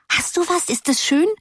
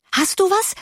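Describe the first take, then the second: First: High eager repeat, falling back on du; expectant cry. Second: Much higher, eager rising question; expectant cry. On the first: Schoolgirls crying out expectantly, high and pressing. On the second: Schoolgirls crying out expectantly to their friend, eager. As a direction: ask eagerly, voice leaping up on du. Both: A narrator's reading. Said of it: "schrien sie erwartungsvoll".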